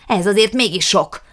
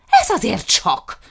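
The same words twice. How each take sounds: First: Louder, higher outrage with weight on azért; loud repeated protest; indignant shout. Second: Louder, higher outraged cry with weight on Ez; raised, slow indignant protest; indignant shout. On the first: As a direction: press the complaint home, loudly. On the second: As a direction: hurl it out in fury. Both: A narrator's reading. Jukrics raging about lost dogs.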